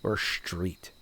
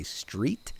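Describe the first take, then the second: First: "street" said the standard way, plain s. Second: "street" with a faint ish- onset, New Jersey style. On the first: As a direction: say "street" cleanly, no New Jersey sh. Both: Shown as a demonstration. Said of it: "what would you say".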